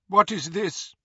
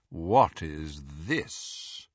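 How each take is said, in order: First: Cold woman's voice. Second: Low, very slow drawl; drawling Lucius Malfoy. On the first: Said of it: "said a woman's cold voice". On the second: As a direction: drawl it lazily and coldly. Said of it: "drawling voice of Lucius Malfoy". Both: A narrator's reading.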